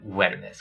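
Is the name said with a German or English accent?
English. It is said plainly with an English W.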